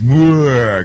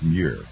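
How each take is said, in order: First: The name is said in an altered, mocking way. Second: The name is said in its standard way. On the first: The speaker calls it wrong. "I don't want to pronounce it that way because he's a liberal" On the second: The speaker calls it right. "I think it's actually pronounced Muir"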